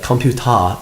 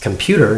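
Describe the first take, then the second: First: It is pronounced with Korean sounds. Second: It is pronounced with English sounds. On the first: "like computer in Korean" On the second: "in English"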